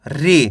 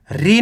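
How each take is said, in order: First: री short and low, not drawn out; short vowel. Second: री stretched out too far; wrong long vowel. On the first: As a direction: stop the ई in री early, dropping the pitch. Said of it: "इतना रुकना आपको". (री को कम खींचकर) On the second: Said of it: "री नहीं पढ़ना". (री को ज़्यादा खींचकर) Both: Shown as a demonstration.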